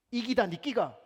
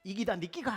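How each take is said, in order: First: Loud, high Gyeongsang woman's retort; Gyeongsang dialect. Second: 이기다 니끼가 repeated in Gyeongsang dialect, ending on a rise. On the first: Gyeongsang woman in the subway answering a Seoul woman, loud Gyeongsang dialect. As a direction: snap back in broad Gyeongsang dialect. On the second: Preacher retelling the subway line, Gyeongsang dialect with a rising end. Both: Retold or imitated. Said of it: "경상도 여자".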